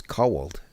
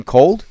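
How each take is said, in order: First: Cold as CO-wuld, two syllables; cold echoed the Newark way, co-wuld; mimicked Newark pronunciation. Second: Cold as one clean syllable; cold corrected to a single syllable; standard pronunciation. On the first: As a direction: stretch cold into co-wuld, incredulous. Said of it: "have a really great Newark accent". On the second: Shown as a demonstration. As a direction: say cold plainly as KOHLD, louder. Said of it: "I mean, cold?".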